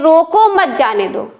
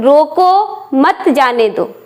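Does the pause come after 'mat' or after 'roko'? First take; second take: after mat; after roko. First: The pause comes right after 'mat'. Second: The pause comes right after 'roko'. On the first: The person is being allowed to go. "उसे जाने के लिए कहा जा रहा है" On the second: The person is being stopped from going. "पहले वाक्य में जाने से रोका जा रहा है"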